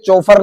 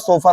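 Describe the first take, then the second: First: The word begins with a 'ch' sound. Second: The word begins with an 's' sound. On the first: The speaker calls it wrong. "ये चौफर नहीं होता" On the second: The speaker calls it right. "सोफर होता"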